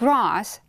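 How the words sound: It is said with a British accent. "it's the British one"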